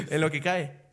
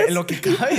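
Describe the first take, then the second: First: Said in the usual way. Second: High, loud, half-laughing answer; retold bashful reply. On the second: Answering a stranger who asks if he's famous, high and hammed-up. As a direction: pitch it up as a hammed-up modest admission. Acts his reply to the woman.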